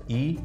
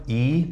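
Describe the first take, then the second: First: Short "إي" vowel; كسرة قصيرة. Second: Long "إي" vowel; كسرة طويلة. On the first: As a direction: say "إي" as a brief i, not held. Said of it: "والكسرة القصيرة". (حركة "إي" مكسورة وقصيرة) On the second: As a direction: hold "إي" as a drawn-out ee. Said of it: "والكسرة الطويلة". (مد "إي" بالياء) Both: Shown as a demonstration.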